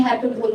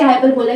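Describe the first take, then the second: First: हाइपरबोल ending on "bol", no final vowel; हाइपरबोल without the extra "a"; corrected pronunciation. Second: हाइपरबोला ending in an extra "la" syllable; हाइपरबोला, as some students misread it; mispronounced hyperbole. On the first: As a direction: say हाइपरबोल closed on the l. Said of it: "लेकिन ये हाइपरबोल होता है". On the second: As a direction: say हाइपरबोला with "-bola" at the end. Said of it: "कुछ बच्चे हाइपरबोला भी बोलते हैं". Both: Shown as a demonstration.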